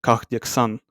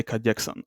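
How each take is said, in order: First: "Kahdeksan" with a hard, throaty H before the D; "Kahdeksan" with a rough ch-like sound after the first A; H pronounced. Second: "kahdeksan" with no H, straight from A to D; "kahdeksan" said like kadeksan; H left silent. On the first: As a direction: make the H heard in "Kahdeksan". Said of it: "the H sound". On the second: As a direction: drop the H in "kahdeksan". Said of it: "Or if they just say". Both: Shown as a demonstration.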